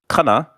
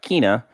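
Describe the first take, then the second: First: The first vowel is an open 'ah' sound. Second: The first vowel is a long 'ee' sound. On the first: "and not Kana" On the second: "and not Kina"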